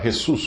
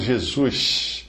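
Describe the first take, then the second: First: The first sound is a harsh throaty rasp. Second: The final sound is a hushing sh. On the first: "um espanhol que lê uh, Jesus, fazendo soar Jesus como se fosse com R" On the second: "como fazem os cariocas puxando um X no lugar do S no final"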